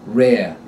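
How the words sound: The final R is dropped completely. "they drop them like a hot rock"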